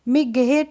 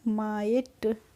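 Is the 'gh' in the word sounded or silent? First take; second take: sounded; silent. First: The g sound is pronounced in the middle. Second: The g sound is silent in the middle. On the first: The speaker calls it wrong. "मिगहेट नहीं पढ़ते हैं" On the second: The speaker calls it right. "जी एच का pronunciation नहीं करते हैं"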